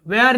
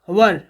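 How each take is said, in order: First: The vowel is an 'air' sound. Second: The vowel is a short 'er' sound. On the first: The speaker calls it wrong. "वेयर नहीं" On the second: The speaker calls it right. "इसे पढ़ेंगे was वर"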